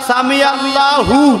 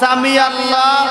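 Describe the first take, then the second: First: Allah ends with an added u vowel. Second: Allah ends without a vowel before the pause. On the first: The speaker calls it right. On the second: The speaker calls it wrong.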